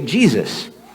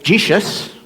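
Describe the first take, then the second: First: The middle consonant is an s sound. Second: The middle consonant is a sh sound. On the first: This is the usual English form today. "we say Jesus" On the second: This is the older form the name had. "it lost the sh sound"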